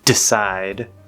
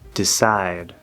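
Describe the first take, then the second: First: The first D is strong and forceful. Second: The first D is soft and light. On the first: The speaker calls it wrong. "It's not decide ... That's too strong" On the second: The speaker calls it right. "these D's at the start are d, d"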